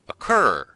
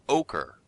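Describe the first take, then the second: First: It begins with a weak uh, stress second. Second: It begins with a full oh, stress first. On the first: The speaker calls it right. "the correct sound, which is a de-stressed uh" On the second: The speaker calls it wrong. "not ochre"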